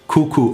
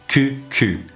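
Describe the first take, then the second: First: The vowels are a rounded 'oo' sound. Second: The vowels are a French 'u' sound. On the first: A friendly greeting. The speaker calls it right. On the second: It sounds like a word for bottom. The speaker calls it wrong.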